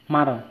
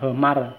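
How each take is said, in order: First: Only the syllable mar is said. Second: A short syllable comes before mar. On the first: This is how the Jarai usually say it. "họ chỉ nói là mar" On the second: This is how some other villages say it. "vùng quê khác họ sẽ đọc là hờ mar"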